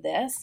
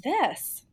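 First: THIS lifted at the end like a question; curl up. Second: THIS dropped at the end like a statement; curl down. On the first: Coach contrasts two endings for the host, this one curled up. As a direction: let THIS rise into an open, asking tone. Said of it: "can you hear it in my voice". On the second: Coach contrasts two endings for the host, this one curled down. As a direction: let THIS fall to a settled close. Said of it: "time to curl your voice up too". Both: Shown as a demonstration.

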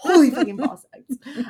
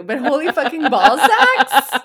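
First: Higher, louder, laughing; laughing repeat. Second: Loud, high, laughing over the words; laughing disbelief. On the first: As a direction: savour the phrase through laughter. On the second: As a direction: repeat it through a laugh, louder and higher. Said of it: "That's just a really weird exclamation". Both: Real, not acted.

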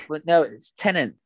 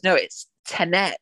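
First: Tenet stressed on the first syllable; corrected Tenet. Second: Tenet drawn out, stress on second syllable; dad's Tenet. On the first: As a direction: say Tenet as TEN-it, short ending. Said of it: "And I go". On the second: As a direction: say Tenet slowly, like ten-NET. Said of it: "me and Dad were having an argument". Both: Retold or imitated.

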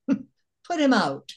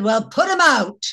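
First: Re-deliver the tag line at half speed; slow repeat of punchline. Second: Nonchalant retort. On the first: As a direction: put him out, drawn out slow and high. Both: Retold or imitated. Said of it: "She said".

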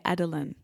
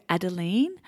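First: Adeline said the English way, ADD-uh-line; English pronunciation. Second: Adeline said the French way, ah-deh-LEEN with a nasal end; French pronunciation. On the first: Host contrasting how English speakers say the name, English pronunciation. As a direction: say Adeline as English speakers do, stress on the first syllable. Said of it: "in English, she has a lot of people say". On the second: Host introducing the guest's name, French pronunciation. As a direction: give Adeline its French sound, stress on the last syllable. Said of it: "that is the French pronunciation".

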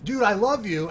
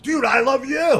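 First: Said in the usual way. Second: Higher and louder, shouting it back; retold shout. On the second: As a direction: yell the line back with excited energy. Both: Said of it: "I gave it back to him".

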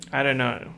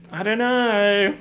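First: Said in the usual way. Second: Loud, high, drawn-out cry of bafflement; high, slow wail of not knowing; exasperated wail. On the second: Acted. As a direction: stretch it out high and loud, at a loss.

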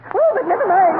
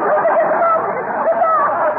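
First: Said in the usual way. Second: "Oh, but never mind." said higher and slowly stretched out; high, slow, affected "never mind"; drawn-out airy dismissal. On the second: Acted. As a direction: float the words up high and slow, waving it away. Mrs Uppington repeats her question, drawn out.

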